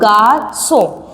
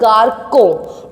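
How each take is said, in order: First: The c is sounded as a soft s. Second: The c is sounded as a hard k. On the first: "when you will put the accent, that is sidel, it become garçon" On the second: "Without that, this accent we will pronounce that word garcon"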